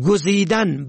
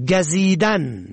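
First: گزیدن said "gozidan"; rounded o after g in گزیدن; zamma on first. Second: گزیدن said "gazidan"; fatha on first. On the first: Teacher shows گزیدن for "choosing", pronounced gozidan. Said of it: "به ضم اول". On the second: Teacher shows گزیدن for "stinging", pronounced gazidan. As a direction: open a after g in گزیدن. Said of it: "به فتح اول". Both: Shown as a demonstration.

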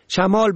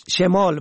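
First: شمال said "shamal"; fatha on first. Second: شمال said "shemal"; short e after sh in شمال; kasra on first. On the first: Teacher shows شمال for "wind", pronounced shamal. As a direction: open a after sh in شمال. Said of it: "به فتح اول". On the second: Teacher shows شمال for "left", pronounced shemal. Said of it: "به کسر اول". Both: Shown as a demonstration.

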